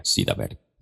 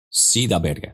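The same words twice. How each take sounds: First: Much lower and softer, an echoed aside; dropped low repeat. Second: Said in the usual way. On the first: Shown as a demonstration. Teacher repeats the point to students, low and soft. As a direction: let the words sink low and soft. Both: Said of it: "سیدھا بیٹھ گئے repeated".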